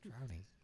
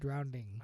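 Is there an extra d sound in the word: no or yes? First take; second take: no; yes. First: It is said plainly, without an extra d sound. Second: It is said with an extra d sound inside. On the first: The speaker calls it right. "drowning, not drowning" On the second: The speaker calls it wrong. "It just sounded like you put an extra D in there"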